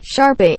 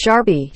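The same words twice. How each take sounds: First: SHARPIE higher, with the other ending; contrasting Sharpie. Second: SHARPIE with a changed ending; mispronounced Sharpie. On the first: Shown as a demonstration. Retelling the running joke, higher contrasting SHARPIE. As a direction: lift SHARPIE and change its last vowel. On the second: Retold or imitated. Recalling a guy's running joke, mispronounced SHARPIE. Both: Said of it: "guy who pronounced Sharpie".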